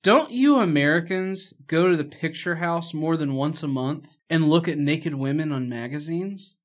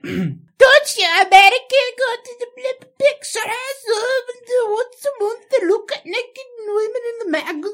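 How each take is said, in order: First: It is said in the speaker's normal voice. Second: It is said imitating the character's accent.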